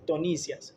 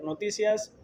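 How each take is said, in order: First: The word begins with a t sound. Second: The word begins with an n sound. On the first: The speaker calls it wrong. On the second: The speaker calls it right.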